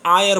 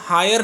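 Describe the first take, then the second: First: The word begins with a vowel sound. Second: The word begins with an h sound. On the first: The speaker calls it right. "इसको आयर बोल रहे हैं" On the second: The speaker calls it wrong. "हम इसको हायर नहीं बोल रहे"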